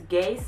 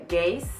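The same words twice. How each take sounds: The two takes are said the same way.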